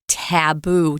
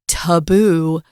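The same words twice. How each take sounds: First: The first vowel sounds like apple's. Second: The first vowel is not like apple's. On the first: The speaker calls it right. "Most everyone says it like Tom and like me" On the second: The speaker calls it wrong. "you could say this in a different way"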